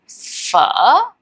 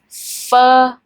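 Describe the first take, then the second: First: The word is said with a dipping tone. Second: The word is said on a flat, level pitch. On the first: "and then with the tone we have phở" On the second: "So you're gonna have phơ"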